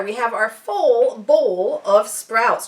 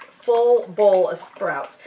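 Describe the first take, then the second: First: Slow, careful tongue twister setup; drawing out each word slowly; slow deliberate. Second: Each word said slowly and carefully; slow tongue twister. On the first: To viewers, saying the phrase slowly as a tongue twister. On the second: To viewers, trying the tongue twister very slowly. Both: Shown as a demonstration. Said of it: "Try saying that ten times fast".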